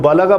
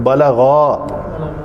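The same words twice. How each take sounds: First: The final vowel is said short. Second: The final vowel is drawn out long. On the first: One man reached. The speaker calls it wrong. "अगर उसको बालागा पढ़ जाएंगे तो वो गलत है" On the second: The two of them reached. The speaker calls it right. "उसको लंबा करेंगे तो आप ये कह रहे हैं कि वो दोनों पहुंचे"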